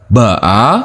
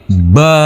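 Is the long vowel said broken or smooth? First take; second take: broken; smooth. First: The long vowel is broken into two parts. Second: The long vowel flows smoothly without a break. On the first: The speaker calls it wrong. "bukan ba-a" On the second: The speaker calls it right. "akan tapi ba"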